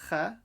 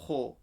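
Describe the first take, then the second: First: The kh sound is light, with a thin mouth. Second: The kh sound is heavy, with a full mouth. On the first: The speaker calls it wrong. "don't say kha" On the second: The speaker calls it right. "Kho is full mouth"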